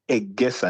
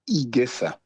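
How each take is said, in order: First: The name begins with an 'eh' vowel. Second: The name begins with an 'ee' vowel. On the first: The speaker calls it right. "you might want to get Egesa" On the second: The speaker calls it wrong. "not Igesa"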